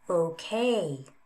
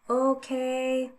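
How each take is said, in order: First: The pitch falls and then rises again. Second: The pitch stays level across the word. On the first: "Fall, rise"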